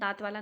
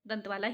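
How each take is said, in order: First: The first vowel is long, as in daant. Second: The first vowel is short, as in dant. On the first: The speaker calls it wrong. "दांत वाला नहीं है" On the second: The speaker calls it right. "दंत वाला ही है"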